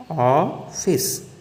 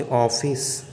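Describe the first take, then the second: First: ऑफिस drawn out very slowly, split after a long opening ऑ; vowel demonstration. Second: Said in the usual way. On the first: Shown as a demonstration. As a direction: stretch the first vowel of ऑफिस, pause, then फिस. (ऑफिस को बहुत धीरे, ऑ और फिस अलग-अलग करके) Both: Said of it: "अंग्रेजी का आ जैसे".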